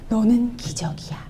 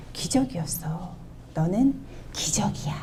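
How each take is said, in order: First: Tender whisper. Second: Softly and tenderly, stress on 너는. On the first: Retold or imitated. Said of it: "그러니까 얘들이 뭐라 그러게요?". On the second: Shown as a demonstration. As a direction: tell your child gently it is a miracle. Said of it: "이렇게 말씀하실 수 있으세요?".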